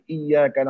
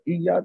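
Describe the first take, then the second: First: The y sound is held long and doubled. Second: The y sound is short and single. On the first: It means 'only You'. The speaker calls it right. "kita baca iyyaka na'budu" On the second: The meaning changes to something else. The speaker calls it wrong. "Kalau tak ditasydidkan, tak di tak dikuatkan iya tu, jadi makna lain"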